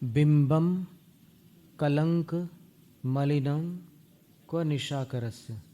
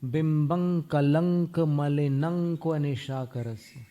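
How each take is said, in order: First: The nasals stay separate from the following consonants. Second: The nasals blend into the following consonants.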